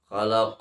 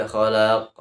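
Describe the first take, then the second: First: Short lam in khalaq; khalaq with one-count lam. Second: Wrongly stretched lam in khalaq; khalaq with overlong lam. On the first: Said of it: "tapi dibaca satu, satu harokat". (khalaq, lam dibaca satu harakat) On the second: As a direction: drag the lam of khalaq to two beats. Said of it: "Jangan dibaca khalaq. Itu salah". (khalaq salah, lam dua harakat) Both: Shown as a demonstration.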